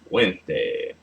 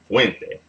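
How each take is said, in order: First: The stress is on the last syllable. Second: The stress is on the first syllable. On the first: The speaker calls it wrong. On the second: The speaker calls it right. "The stress is on the second to last syllable"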